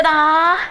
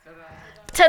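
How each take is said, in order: First: Loud high ta-da; big high ta-da; ta-da shout, higher. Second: Loud showy ta-da; big ta-da; ta-da shout. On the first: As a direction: finish with a bright flourish. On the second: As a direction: belt it out like a showman. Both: Shown as a demonstration. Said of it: "what can we do?".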